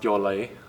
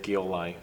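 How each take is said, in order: First: The surname is said with its native pronunciation. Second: The surname is said the common anglicized way. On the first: This is how the family name is really said. "So it's pronounced Gyolai" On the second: This is the easier version most people use. "the usual one I hear is Gyolai"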